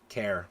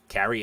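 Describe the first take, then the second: First: The name is said with one syllable. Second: The name is said with two syllables. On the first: The speaker calls it right. "That sounds right" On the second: The speaker calls it wrong. "I probably said that name wrong"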